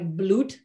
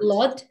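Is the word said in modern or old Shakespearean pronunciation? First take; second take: old; modern. First: It is said in old Shakespearean pronunciation. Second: It is said in modern English pronunciation.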